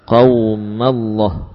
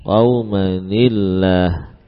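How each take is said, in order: First: The n merges into the following l sound. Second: The n is kept, followed by an added i. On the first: The speaker calls it wrong. "jangan sampai kita baca qaumallah" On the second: The speaker calls it right. "maka dibaca dengan cara yang tadi kita sebutkan"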